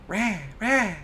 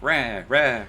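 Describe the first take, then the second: First: It is said quietly, with more sass. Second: It is said loudly, with less sass.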